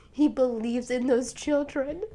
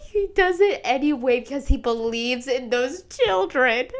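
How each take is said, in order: First: Softer, moved; quietly moved repeat; tender. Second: Said in the usual way. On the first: Real, not acted. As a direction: say it softly, touched. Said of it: "I'm literally tearing up". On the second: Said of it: "tearing up".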